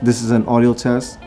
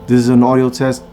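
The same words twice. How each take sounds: First: The recording level is quieter. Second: The recording level is louder. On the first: "negative ten D B and the low cut filter off" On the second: "plus ten D B with the low cut filter off"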